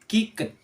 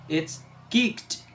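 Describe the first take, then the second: First: The ending is an extra syllable. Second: The ending is a plain t sound. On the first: "in writing we can read as kick it" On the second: "in voiceless we have to change to t"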